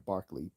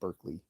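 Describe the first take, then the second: First: The first syllable sounds like 'bar'. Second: The first syllable sounds like 'burk'. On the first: This is how the name was said where he came from. The speaker calls it right. "it was pronounced there Barkley" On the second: This is how the name is said in California. The speaker calls it wrong. "they call it Berkeley"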